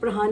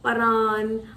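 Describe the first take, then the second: First: The name begins with a pr sound. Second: The name begins with a plain p sound. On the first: The speaker calls it right. "प्रहान एक हिंदू नाम है" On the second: The speaker calls it wrong. "परान, पता नहीं क्या करके"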